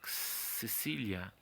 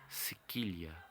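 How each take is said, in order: First: The second syllable starts with an s sound. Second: The second syllable starts with a k sound.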